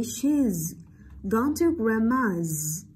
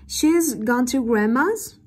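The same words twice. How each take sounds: First: Said in the usual way. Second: "She's gone to grandma's" lifted into a question on "grandma's"; slow, louder, pitch climbing on "grandma's"; rising intonation. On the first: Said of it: "câu trần thuật". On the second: Shown as a demonstration. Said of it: "lên giọng ở cuối câu". (lên giọng ở "grandma's" thành câu hỏi)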